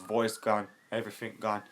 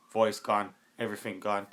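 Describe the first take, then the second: No difference in how they are said.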